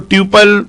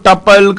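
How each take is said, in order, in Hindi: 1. पहला अक्षर 'tyoo' जैसा सुनाई देता है। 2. पहला अक्षर 'tuh' जैसा सुनाई देता है। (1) "कई उसको ट्यूपल कहते हैं" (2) "कई लोग उसको टपल"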